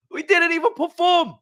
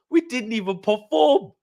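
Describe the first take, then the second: First: Exasperated outburst. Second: Said in the usual way. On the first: Real, not acted. Fan repeats it to viewers, now higher and exasperated. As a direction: pitch jumps much higher on perform. Fan ranting about team's loss.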